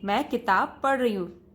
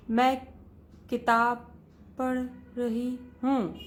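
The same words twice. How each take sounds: First: "मैं किताब पढ़ रही हूँ" said in one flow at a steady speed; even pace. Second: "मैं", "किताब", "पढ़", "रही हूँ" split by long pauses, the end slow; uneven wrong reading. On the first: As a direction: say it smoothly, every word at the same speed. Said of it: "एक संतुलन में सारे शब्द आप एक गति से बोलें". (संतुलित, एक समान गति से पढ़ना) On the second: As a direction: stumble through the words one by one. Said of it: "ऐसे नहीं". (रुक-रुक कर, असंतुलित गति से पढ़ना) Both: Shown as a demonstration.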